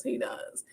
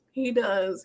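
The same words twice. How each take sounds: First: Breathed out in a choked whisper. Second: Said in the usual way. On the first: Real, not acted. To his mother, holding back tears, whispered. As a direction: let it fall to a whisper, fighting tears. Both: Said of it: "I'm definitely getting emotional".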